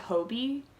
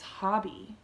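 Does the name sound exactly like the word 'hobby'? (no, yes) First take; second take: no; yes. First: It is said differently from the word hobby. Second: It is said exactly like the word hobby. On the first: The speaker calls it wrong. "I've heard people call it Hobie" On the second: The speaker calls it right. "I'm pretty sure it's Hobby. You know, like knitting is a hobby?"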